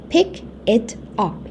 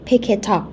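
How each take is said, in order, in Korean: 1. 각 단어를 따로 발음하고, 연결하지 않아요. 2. 단어들이 이어져서 하나로 연결되어 발음돼요. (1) "pick it up 이라고 하시는 것보다" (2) "이렇게 연음, 연결해가지고 발음하는"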